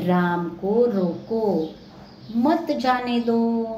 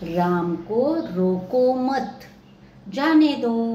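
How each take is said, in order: First: The pause comes right before the word 'mat'. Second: The pause comes right after the word 'mat'. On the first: Stop him; do not let him go. "पहले वाक्य में रोकने के लिए कहा है, उसको जाने नहीं देना है।" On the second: Do not stop him; let him go. "अल्पविराम आगे रखा तो राम को रोको मत, यानी रोकना नहीं है"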